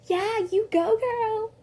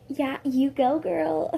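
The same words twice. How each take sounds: First: Put-on high, loud sassy girl cheer. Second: Lightly raised cheer; milder cheer. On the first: Vance cheering on the fight, in a sassy voice. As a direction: hype her up like a sassy friend. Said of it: "Okay, not like that". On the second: Retold or imitated. Gwen cheering on the fight, a milder cheer. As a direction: cheer her on, toned down. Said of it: "no, Gwen was like".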